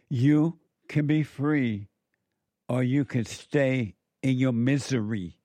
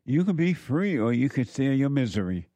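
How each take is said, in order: First: You can be free said slowly, each word weighed; slow emphatic repeat. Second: Said in the usual way. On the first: Shown as a demonstration. Preacher repeats the choice to listeners, slow and emphatic. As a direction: lean on the choice, slow and deliberate. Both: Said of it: "repeated slower".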